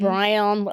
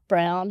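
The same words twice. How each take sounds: First: It is drawn out into three syllables. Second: It is said as one short syllable. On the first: The speaker calls it wrong. "I could have three syllables" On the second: The speaker calls it right. "supposed to have one syllable"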